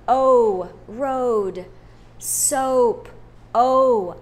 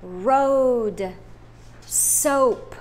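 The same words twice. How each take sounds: First: O called out loud, then road and soap; loud model. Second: Road and soap said out loud; loud model words. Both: Shown as a demonstration. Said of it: "say them in a loud voice".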